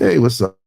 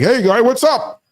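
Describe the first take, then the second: First: It sounds relaxed and indifferent. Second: It sounds nervous, forcing a show of calm.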